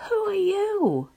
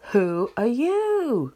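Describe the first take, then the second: First: High, loud call across the mountains; raised, high-pitched holler; curious yell. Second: Loud, slow, drawn-out echo; high, stretched-out answering shout; echoed yell. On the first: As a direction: yell it out to an unseen stranger. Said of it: "he yells". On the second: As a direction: call it back slowly like a mountain echo. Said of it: "He receives the answer". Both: A narrator's reading.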